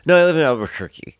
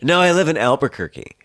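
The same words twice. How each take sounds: First: The line is said in a slurred drunk voice. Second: The line is said in a normal sober voice.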